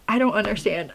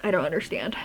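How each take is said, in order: First: Said in the usual way. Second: Softly whispered, baffled. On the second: Real, not acted. Vlogger to viewers, baffled by the book, whispering. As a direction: breathe it out under your breath. Bewildered repeat, then whispered.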